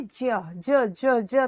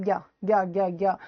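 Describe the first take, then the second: First: ज repeated as "jya", palatal j into ya; alternative pronunciation. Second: ज्ञा repeated as "gya", hard g into ya; demonstrated pronunciation. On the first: Teacher showing the other reading to students, ज as "jya". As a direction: drill ज as "jya", all on the palate. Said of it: "अगर हम ज्या कहते हैं इसको". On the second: Teacher showing how we say it, ज्ञा as "gya". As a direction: drill ज्ञा from throat to palate, lower pitched. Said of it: "ज्ञा बोलते हैं हम". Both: Shown as a demonstration.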